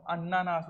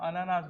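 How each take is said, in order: First: "अन्नानास", holding the first n; doubled-n pronunciation. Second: Said in the usual way. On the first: Shown as a demonstration. Teacher gives students the Chhattisgarhi word, "अन्नानास" with doubled n. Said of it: "अन्नानास बोल देते हैं". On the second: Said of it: "अनानास भी लिखोगे तो भी चल जाएगा".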